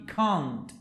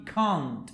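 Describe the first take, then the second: First: It is said with a British accent. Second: It is said with a British accent.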